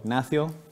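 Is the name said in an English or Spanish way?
Spanish. The name is said with a Spanish-style pronunciation. This is how the name's owner prefers it. "as I like to pronounce it"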